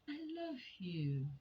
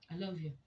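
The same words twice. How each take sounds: First: The voice sounds warm and affectionate. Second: The voice sounds grudging and dismissive. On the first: The speaker truly means it. The speaker calls it right. "which sounded like love itself" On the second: The speaker says it only because it is expected. The speaker calls it wrong. "this last one sounds like this is what you've been yearning to hear, right? I have said it. And so what?"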